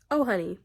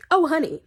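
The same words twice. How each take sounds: First: Toned-down, dismissive "oh, honey"; restrained condescension. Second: High, loud, condescending exclamation; sharply raised, patronising "oh, honey"; mock pity. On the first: Same words repeated, toned down. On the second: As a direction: pounce on it with loud fake pity. Mock pity aimed at absent friend. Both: Real, not acted.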